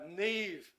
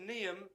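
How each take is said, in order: First: The name is said as one syllable, neev. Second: The name is said as two syllables, nee-am. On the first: The speaker calls it right. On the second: The speaker calls it wrong.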